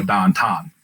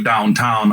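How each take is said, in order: First: Pittsburgh "downtown" with "ow" flattened to a long "ah"; Pittsburgh accent. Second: Said in the usual way. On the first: Shown as a demonstration. Pittsburgh native showing how home says downtown, Pittsburgh accent. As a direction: say it like "dahn-tahn", Pittsburgh style. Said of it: "elongate everything". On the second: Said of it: "we, you know, elongate everything".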